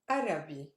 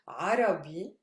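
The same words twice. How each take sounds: First: It begins with a plain open vowel. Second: It begins with a tight throat sound. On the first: The speaker calls it wrong. "instead of" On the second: The speaker calls it right. "I want to say"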